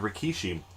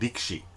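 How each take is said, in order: First: The middle vowel is clearly pronounced. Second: The middle vowel is dropped or nearly silent. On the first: The speaker calls it wrong. "W W E legend Rikishi" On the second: The speaker calls it right. "The pronunciation is actually Rikshi"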